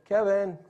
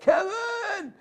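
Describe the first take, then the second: First: The name is called in a calm, ordinary tone. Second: The name is called in a stern, warning tone. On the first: Nothing is wrong; it is just time to eat. "normal thing" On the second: The child is in trouble. "I knew"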